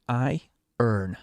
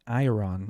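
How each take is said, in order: First: "I earn" said slowly as two parts, "eye" then "urn"; iron as I-earn. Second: "iron" said as "eye-er-on", full last vowel; mispronounced iron. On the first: Gamer working out the word iron, slowly saying "I earn". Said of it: "it's like I earn". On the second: Gamer checking how to say "iron", guessing eye-er-on. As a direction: sound out "iron" with a clear "on" ending. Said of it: "how do you say iron again". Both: Shown as a demonstration.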